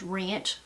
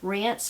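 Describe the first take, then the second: First: The word is said with an e and ch. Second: The word is said with a plain i and s. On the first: "is wrench" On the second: "Rinse, like rinse the dishes"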